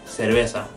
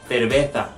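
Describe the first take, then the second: First: The z is pronounced like an s. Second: The z is pronounced like a th. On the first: "If I'm saying it like Latin America" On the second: "If I'm saying it like Spain"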